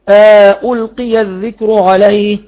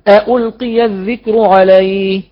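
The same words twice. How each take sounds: First: Both hamzas full, with an inserted alif between. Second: Both hamzas full, with no alif between.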